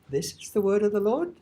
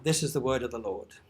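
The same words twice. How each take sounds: First: It ends with a questioning rise. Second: It ends with a falling statement tune.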